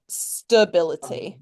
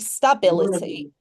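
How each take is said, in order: First: An unstressed vowel is reduced to a schwa. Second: An unstressed vowel is pronounced fully, as spelled. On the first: "but it's like stability. That's how we pronounce it" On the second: "it should be stability"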